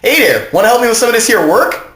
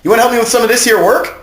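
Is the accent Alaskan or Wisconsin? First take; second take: Wisconsin; Alaskan. First: It is said in a Wisconsin accent. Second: It is said in an Alaskan accent.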